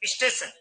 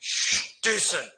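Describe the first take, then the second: First: An extra i vowel comes before the s. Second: It begins directly with the s-t cluster. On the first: "अब आप इसमें ई जबरदस्ती ठूस रहे हो" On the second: "आप ये बोलने जाओ आपके प्राण निकल जाएंगे"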